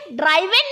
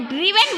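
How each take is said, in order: First: ड्राइवन with a long "eye" vowel; ड्राइवन keeping the vowel of "drive"; wrong pronunciation. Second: ड्रिवन with a short "i" vowel; ड्रिवन rhyming with "given"; correct pronunciation. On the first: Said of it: "ड्राइवन नहीं बोलना है". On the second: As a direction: say ड्रिवन as "driv-en". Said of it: "ड्राइव ड्रिवन बोलना है". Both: Shown as a demonstration.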